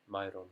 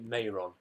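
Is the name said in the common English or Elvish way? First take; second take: Elvish; common English. First: The name has the Elvish-style pronunciation. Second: The name has the common English pronunciation. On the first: This follows the Elvish pronunciation. "I use the Elvish pronunciation" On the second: This is how most people say it. "I know people say Mayron"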